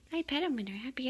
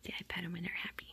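First: Higher, cooing sing-song; pet talk. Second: Said in the usual way. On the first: Real, not acted. Petting happy kittens, higher cooing pet talk. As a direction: coo it to the kittens, pitched up.

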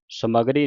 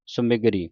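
First: ਸਮਗਰੀ without i after m; wrong reading demo. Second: ਸਮਗਰੀ with short i after m; correct short-i reading. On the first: Teacher showing what not to read, ਸਮਗਰੀ as "sa-ma-gree". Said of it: "ਸਮਗਰੀ ਨਹੀਂ ਪੜ੍ਹਨਾ". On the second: Teacher repeating the right reading, ਸਮਗਰੀ as "sa-mi-gree". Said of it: "ਸਮਗਰੀ ਪੜ੍ਹਨਾ ਹੈ". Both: Shown as a demonstration.

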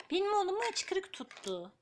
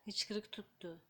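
First: Cooing surprise at the hiccups. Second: Whispered Hıçkırık tuttu. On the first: Tells baby loudly about hiccups. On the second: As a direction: hush it to yourself. Whispers baby has hiccups. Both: Real, not acted.

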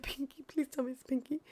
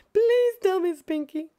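First: Soft, hushed begging; quiet plea. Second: High, loud begging; eager plea. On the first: Streamer hoping for Pinky, soft hushed plea. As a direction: murmur the plea much softer. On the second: Streamer hoping for Pinky, loud high begging. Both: Real, not acted.

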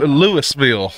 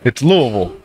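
First: "Louisville" said as Lewis-ville, every syllable; the tourist pronunciation; outsider's Louisville. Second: "Louisville" swallowed as Luh-vul, low; the local way to say it. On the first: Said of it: "people saying". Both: Shown as a demonstration.

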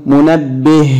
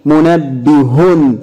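First: منبه as munabbih; sukun ending. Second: منبه slowly as munabbihun; voweled ending. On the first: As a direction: stop منبه on a bare h. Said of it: "طب بالسكون". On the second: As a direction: say منبه with a full "-hun" ending. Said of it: "هننطقها ايضا مرتين بالتشكيل". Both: Shown as a demonstration.

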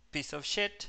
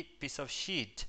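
First: "piece of shit" with a short, clipped "i" in "shit"; short vowel. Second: "piece of sheet" slowly, stretching the "ee" in "sheet"; long vowel, slow. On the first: Teacher contrasting vowels, short "i" in "shit". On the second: Teacher contrasting vowels, long "ee" in "sheet". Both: Shown as a demonstration. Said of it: "la diferencia justamente está en".

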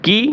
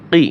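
First: "কি" as "kee"; light kaf sound. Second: "কি" with a uvular q; deep qaf sound. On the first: Teacher repeats the contrast, "কি" with light k. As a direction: keep the k of "কি" forward and light. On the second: Teacher repeats the contrast, "কি" with back q. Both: Shown as a demonstration. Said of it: "একটা উচ্চারণ ও প্রায় অন্যটার সাথে মিলে যায়".

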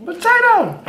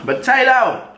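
First: Squealing excited. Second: High excited call of the word; excited shout. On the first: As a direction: shriek it with glee. Excited food exclamation, repeated. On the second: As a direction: exclaim it with delight. Excited food exclamation. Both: Real, not acted.

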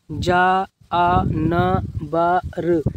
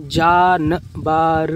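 First: जा, आ, न, बर said slowly apart; slow sounding out. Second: जानबर blended, syllables drawn out; slow reading. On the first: Teacher showing slow reading, जानबर sounded out. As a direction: break जानबर into separate sounds. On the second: Teacher showing how to read, slow reading. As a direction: join जानबर up, stretching it. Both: Shown as a demonstration. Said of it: "इस तरीके से आप पढ़िए धीमे धीमे".

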